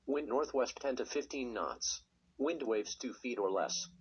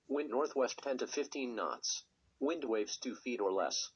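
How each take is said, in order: Both takes have the same delivery.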